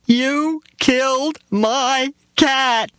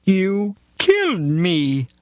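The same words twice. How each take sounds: First: Put-on very high, slow wailing little girl; little girl accusing the driver; screaming child. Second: High, slow, accusing cat voice; a dying cat accusing the driver. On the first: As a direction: wail it like a heartbroken child. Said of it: "she screamed". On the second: Retold or imitated. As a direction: drag out killed in a high wounded cat voice. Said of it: "the cat said".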